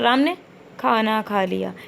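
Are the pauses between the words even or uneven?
uneven. The gaps between the words are uneven. The speaker calls it wrong. "ये चीज़ गलत हो जाएगी"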